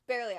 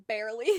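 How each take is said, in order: First: "Barely" said again through a laugh, falling; a chuckled "Barely" with the tune dropping; laughing repeat. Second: "Barely" tossed out loud, then a beat; wry emphasis. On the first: Laughing it off to viewers, laughing repeat. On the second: Telling viewers she barely graduated, loud wry emphasis. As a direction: punch the word "Barely" loud with a rising tune. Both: Real, not acted.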